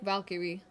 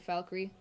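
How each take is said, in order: First: Every syllable is pronounced fully and carefully. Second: The syllables are slurred and reduced. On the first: "Like Valkyrie" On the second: "if you're a little bit lazier with the pronunciation"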